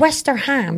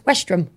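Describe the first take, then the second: First: The name is said with three syllables. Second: The name is said with two syllables. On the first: It is read as it is spelled. The speaker calls it wrong. "It's Westerham, it looks like to me" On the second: It is said the way locals say it. The speaker calls it right. "And that's Westrum"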